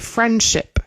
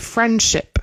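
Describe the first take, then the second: First: The d sound in the middle is dropped. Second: The d sound in the middle is dropped.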